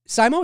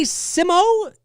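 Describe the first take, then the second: First: "Simo" said as SY-mo, questioning; alternative name pronunciation. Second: "Simo" said as SIM-oh, questioning; tentative name pronunciation. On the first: Host second-guessing a viewer's name, "Simo" as SY-mo. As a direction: try "Simo" with a long i, like SIGH-mo. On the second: Host reading a viewer's name, unsure, "Simo" as SIM-oh. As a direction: try "Simo" with a short i, like SIM-oh. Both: Real, not acted.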